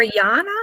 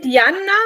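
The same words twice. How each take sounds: First: "Yana" said with a Y and a long open ah; second name option. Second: "Yanna" said with a Y and a short first vowel; first name option. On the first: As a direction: say "Yana" with a drawn-out first vowel. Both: Shown as a demonstration. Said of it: "Is it Yanna or Yana?".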